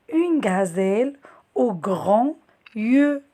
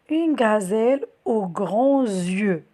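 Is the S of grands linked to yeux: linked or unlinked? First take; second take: unlinked; linked. First: Grands and yeux are said without a linking sound. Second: A z sound links grands to yeux.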